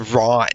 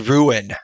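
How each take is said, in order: First: The name is said as one short syllable. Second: The name is said as two syllables. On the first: "they're pronouncing this as Ron" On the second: "I feel like it should be Ruin"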